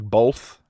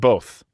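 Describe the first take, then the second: First: It is said with an L sound. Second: It is said without an L sound. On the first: "some people who will put an L in there, like" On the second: "how do you guys say the word both?"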